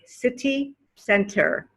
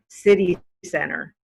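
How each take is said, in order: First: The T in city is a clear T. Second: The T in city sounds like a D. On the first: "you guys will say city center" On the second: "with the American accent, we would say city center"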